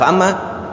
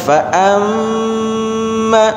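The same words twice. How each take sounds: First: The nasal m sound is cut short. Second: The nasal m sound is held long. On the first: The speaker calls it wrong. "enggak boleh dibalak fa'amma" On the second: The speaker calls it right. "harus dibaca fa'amma"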